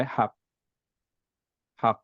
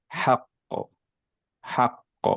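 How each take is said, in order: First: হাক ending in a flat stop; without qalqalah. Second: হাক্ক with the final ক bouncing back; with qalqalah. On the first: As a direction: stop হাক dead, no echo. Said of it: "কলকলা ছাড়া বলি". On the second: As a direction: make হাক্ক echo at the end. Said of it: "কলকলা সহ যদি বলি". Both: Shown as a demonstration.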